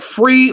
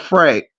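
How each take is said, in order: First: The name ends with an 'ee' vowel. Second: The name ends with an 'ay' vowel. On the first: "Do I say your name like Free or Frey?" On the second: "Do I say your name like Free or Frey?"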